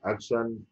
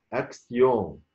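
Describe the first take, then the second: First: أكشن with English sh and short -an ending; wrong English pronunciation. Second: أكسيون with s-y and nasal final on; أكسيون the French way, ending stretched out; French pronunciation. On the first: Teacher shows learners what to avoid, English pronunciation. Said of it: "لا، مش أكشن". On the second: Teacher models the word for learners, French pronunciation. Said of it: "مش أكسن". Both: Shown as a demonstration.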